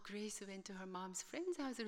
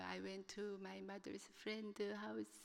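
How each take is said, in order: First: Very slow, careful repeat of the student's words; slow teacher echo. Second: Very slow, halting words, softer; halting broken English. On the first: Teacher reflecting the student's words back to class, slow and careful. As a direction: echo back her sentence patiently. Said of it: "선생님이 나오시더니". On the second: Student struggling through an oral report, halting. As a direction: stumble through it like a nervous student. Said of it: "뜨문뜨문 얘기를 하는 거예요". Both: Retold or imitated.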